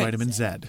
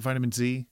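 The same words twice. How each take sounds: First: The letter is said as zed. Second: The letter is said as zee.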